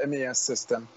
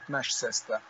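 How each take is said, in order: First: MES is spelled out letter by letter. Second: MES is said as one word, 'mesh'.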